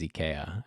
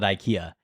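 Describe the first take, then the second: First: The name is said with Swedish pronunciation. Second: The name is said with American pronunciation. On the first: "the Swedish pronunciation, which is IKEA" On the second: "for everyone in this country, we we call it IKEA"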